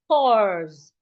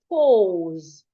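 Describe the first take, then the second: First: It is said with an American vowel. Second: It is said with a British vowel. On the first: "Americans articulated as O" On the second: "British articulated as O"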